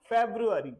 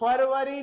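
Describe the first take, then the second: First: It is said with English sounds, feb-roo-ary. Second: It is said with Hindi sounds, far-va-ree. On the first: The speaker calls it right. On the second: The speaker calls it wrong.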